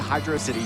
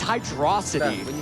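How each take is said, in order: First: It ends with the separate word 'city'. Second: It is stressed on 'dro', rhyming with velocity. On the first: "it's not a city, but I still say Hydro City Zone" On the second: "like Velocity"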